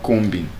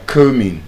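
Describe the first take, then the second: First: The b is sounded before the ending. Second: The b is silent before the ending. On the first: The speaker calls it wrong. "not combing" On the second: The speaker calls it right. "You are combing"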